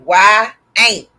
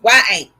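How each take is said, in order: First: "Why ain't" drawn out in two loud beats; sounded-out pronunciation. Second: "Why ain't" run together quickly as one name; said fast. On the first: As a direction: slowly demonstrate "Why ain't", punching each word. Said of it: "is how you say it". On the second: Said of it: "say it fast". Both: Shown as a demonstration.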